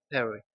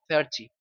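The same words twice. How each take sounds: First: The T sound is dropped. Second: The T sound is clearly pronounced. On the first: This is fast everyday speech. "en el inglés rápido, en el inglés cotidiano, es simplemente" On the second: This is a more formal way of speaking. "Existen variantes de un inglés más formal que esa T sí tiene sonido"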